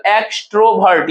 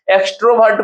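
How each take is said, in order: First: extrovert broken into three parts, x, ट्रो and वर्ट; teacher dividing extrovert into three beats; split into syllables. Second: Said in the usual way. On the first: Shown as a demonstration. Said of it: "तीन part में टूटा हुआ है". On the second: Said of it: "जब आप तोड़ते हैं".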